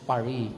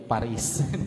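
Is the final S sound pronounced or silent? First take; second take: silent; pronounced. First: The final S sound is silent. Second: The final S sound is pronounced. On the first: This is how the French say it. "sa French, silent S yun" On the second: This is how Filipinos say it. "Mga Pilipino"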